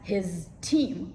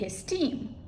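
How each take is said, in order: First: The final sound of his is a voiced z. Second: The final sound of his is a voiceless s. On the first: The speaker calls it wrong. "we don't say it as" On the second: The speaker calls it right. "it becomes devoiced"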